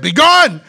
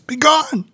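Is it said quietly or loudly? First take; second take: loudly; quietly. First: It is said very loudly. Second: It is said fairly quietly.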